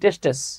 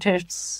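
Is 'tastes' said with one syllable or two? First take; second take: two; one. First: The word ends with an extra '-es' syllable. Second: The word ends in a single 'sts' cluster. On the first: The speaker calls it wrong. "আমি তখন প্রোনাউন্সিয়েশনটা ভুল জানতাম" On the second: The speaker calls it right. "আমি আজকে বললাম টেস্টস"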